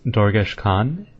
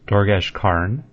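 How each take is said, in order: First: The second word has no r sound. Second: The second word has an r sound.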